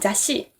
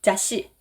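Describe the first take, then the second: Both takes have the same delivery.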